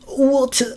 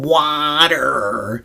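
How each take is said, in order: First: Water is said in a posh British accent. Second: Water is said in a plain American accent.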